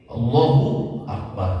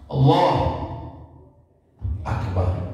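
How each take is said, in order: First: The two words are joined without a pause. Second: A long pause separates the two words.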